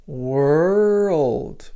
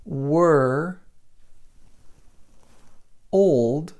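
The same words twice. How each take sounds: First: Put-on "world" said as one linked "were-old"; "world" with the linking sound. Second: Put-on "were" and "old" split with a long pause; separated syllables. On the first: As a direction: blend "were" into "old" smoothly. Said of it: "Can you hear that?". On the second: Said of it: "If I separate this". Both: Shown as a demonstration.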